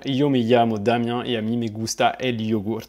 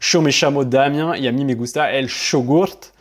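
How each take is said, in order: First: The Y and double L sound like 'y'. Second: The Y and double L sound like 'sh'. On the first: This is how it is said in Spain. "en Espagne, tu vas plutôt dire" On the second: This is how it is said in Argentina. "en Argentine plutôt quelque chose qui va ressembler à ça"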